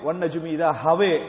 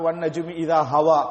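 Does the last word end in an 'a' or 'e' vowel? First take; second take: e; a. First: The last word ends in a fronted 'e' vowel. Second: The last word ends in an open 'a' vowel. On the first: This is the reading of the Basra reciter. "பசரால உள்ளவர் ... உச்சரிச்சாரு" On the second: This is the reading of the Mecca reciter. "மக்கால உள்ளவர் ... உச்சரிச்சார்"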